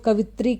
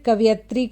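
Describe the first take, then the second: First: The 'ya' sound is left out. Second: The 'ya' sound is pronounced. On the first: The speaker calls it wrong. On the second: The speaker calls it right.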